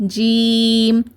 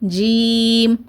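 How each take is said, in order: The two takes are said the same way.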